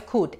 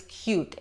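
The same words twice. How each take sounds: First: "cute" said as "koot", no glide; wrong pronunciation. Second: "cute" said "kyoot", softer; right pronunciation. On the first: Teacher contrasting wrong and right cute, "koot". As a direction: drop the y in "cute". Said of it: "No es cute". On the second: Teacher contrasting wrong and right cute, "kyoot". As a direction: glide into the u of "cute". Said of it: "es cute". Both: Shown as a demonstration.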